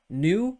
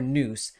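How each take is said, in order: First: The word has a French pronunciation. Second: The word has an English pronunciation. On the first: "New would be more like a French pronunciation" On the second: "Noose would be more like a like an oh, uh, English pronunciation"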